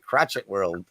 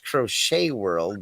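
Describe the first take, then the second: First: The word is said like crotchet. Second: The word is said as crow-shay. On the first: The speaker calls it wrong. "the funny way I first called her" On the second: The speaker calls it right. "I'll say it right this time"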